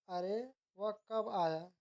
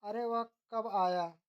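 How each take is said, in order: First: "अरे" set apart, then "वह कब आया"; slow reading with a comma break after "अरे"; pause after अरे. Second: "अरे वह" run together, then a break before "कब आया"; slow reading with the break after "वह"; pause after वह. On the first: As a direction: slowly say "अरे", stop, then ask "वह कब आया". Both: Shown as a demonstration. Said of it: "अशुद्धि वर्तनी संबंधी वाक्य अशुद्धियाँ".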